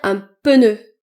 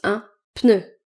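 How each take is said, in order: First: The P and N are separated, southern French style. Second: The P and N are joined directly together. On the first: The speaker calls it wrong. "certaines personnes, notamment dans le sud de la France, qui vont dire un pneu" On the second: The speaker calls it right. "Mais ça se prononce un pneu"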